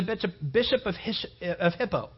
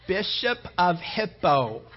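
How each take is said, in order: First: "Hippo" tripped over as "Hish-" before landing on "Hippo"; garbled "Hippo" mid-sermon; stumbled name. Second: "bishop of Hippo" said slowly and clearly, with a small laugh; slowly, laughing at himself, get "Hippo" right; corrected "Hippo", slow and sheepish; careful correction. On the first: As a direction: fumble "bishop of Hippo", "Hish-" slipping out first. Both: Shown as a demonstration. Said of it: "I started messing up some words there".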